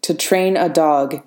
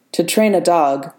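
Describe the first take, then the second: First: Unyielding. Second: Even. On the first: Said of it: "thread of unyielding vibranium". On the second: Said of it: "Ross said evenly". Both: Acted.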